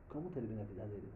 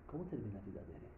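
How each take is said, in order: Both takes have the same delivery.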